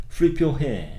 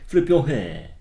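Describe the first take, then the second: No difference in how they are said.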